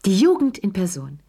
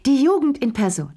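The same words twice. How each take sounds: First: Shriek. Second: High shrieked "Jugend", loud and shrill in pitch; shrieking. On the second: Madame Pelou shrieking with mocking laughter. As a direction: screech "die Jugend in Person" up high. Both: A narrator's reading. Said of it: "kreischte Madame Pelou".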